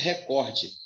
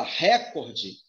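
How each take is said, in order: First: "recorde" said as re-COR-de; stress on COR. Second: "recorde" said as RÉ-cor-de; wrong stress on RE. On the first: Teacher correcting the mistake, COR stressed in "recorde". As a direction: put the weight on the middle of "recorde". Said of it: "A pronúncia é recorde". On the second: Teacher warning about the common mistake, RE stressed in "recorde". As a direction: hit the first syllable of "recorde". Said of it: "se você fala recorde". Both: Shown as a demonstration.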